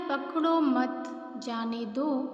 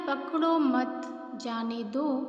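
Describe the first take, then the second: First: There is a pause after the word 'mat'. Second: There is a pause after the word 'mat'.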